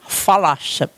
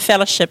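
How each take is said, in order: First: It is said in a northern Maori dialect. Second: It is said in a standard accent.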